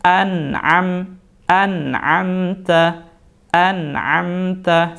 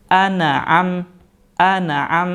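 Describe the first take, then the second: First: Slow "an'amta" with a smooth, unbounced nun. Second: "an'am" with the n bounced; "an'am" with the nun jumping off; bouncing n. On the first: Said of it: "Yang benar bagaimana?". ("an'amta" dengan nun tanpa pantulan) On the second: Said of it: "Jadi bukan". ("an'am" dengan nun dipantulkan) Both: Shown as a demonstration.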